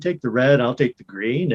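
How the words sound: It is said in the speaker's natural voice. It belongs to the current character. The speaker calls it right. "This character just sounds like me"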